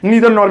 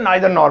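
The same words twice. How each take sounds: First: It is said with an American pronunciation. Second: It is said with a British pronunciation.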